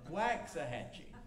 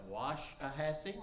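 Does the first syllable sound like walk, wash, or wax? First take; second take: wax; wash. First: The first syllable sounds like wax. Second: The first syllable sounds like wash. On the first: "why can't we just say W-A-X, wax?" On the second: "I call it"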